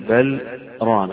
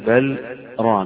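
First: A short breathless stop comes before 'ran'. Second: The same.

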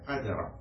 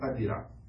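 First: The middle consonant carries the vowel a. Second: The middle consonant carries the vowel i. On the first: "بفتح الدال" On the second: "أو كسرها"

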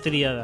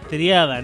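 First: The stress falls on the first syllable, the I. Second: The stress falls on the second syllable, the A. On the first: The speaker calls it wrong. "no tríada" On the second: The speaker calls it right. "Triada, no tríada. En claro. La A"

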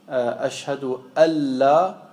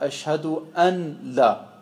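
First: The n merges into the l, no n heard. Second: The n is pronounced separately before the l. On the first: The speaker calls it right. "Er sagt nicht Ashhadu alla" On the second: The speaker calls it wrong. "sondern sagt Ashhadu anla"

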